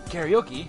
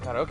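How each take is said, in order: First: It is said with an English pronunciation. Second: It is said with a Japanese pronunciation.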